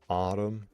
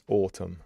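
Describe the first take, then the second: First: It is said in an American accent. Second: It is said in a non-American accent. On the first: The speaker calls it wrong. "in American, everybody says autumn" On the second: The speaker calls it right. "It's autumn"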